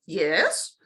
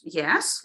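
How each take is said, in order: First: "Yes" drawn out, swooping up from low; second tune of yes. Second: "Yes" kept short and low; first tune of yes. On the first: Teacher offering the other option to trainees, rising "Yes". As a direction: let "Yes" climb into a question. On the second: Teacher offering the first option to trainees, short low "Yes". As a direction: say "Yes" briefly, without a long swoop. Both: Shown as a demonstration. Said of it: "like this, or".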